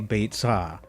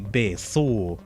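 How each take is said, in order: First: It is said with the modern Hebrew pronunciation. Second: It is said with the Tiberian Hebrew pronunciation. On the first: "that's the modern Hebrew pronunciation" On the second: "Tiberian Hebrew pronunciation is apparently"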